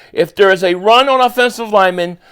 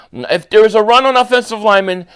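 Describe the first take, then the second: Both takes have the same delivery.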